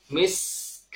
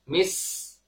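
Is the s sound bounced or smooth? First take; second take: smooth; smooth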